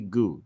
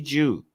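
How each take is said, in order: First: The syllable begins with a hard G sound. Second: The syllable begins with a soft J sound. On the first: The speaker calls it right. "Just say goo" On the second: The speaker calls it wrong.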